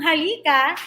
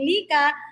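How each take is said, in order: First: The word is said in its full form. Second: The word is said in a shortened form. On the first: "ang halika" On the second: "nagiging lika"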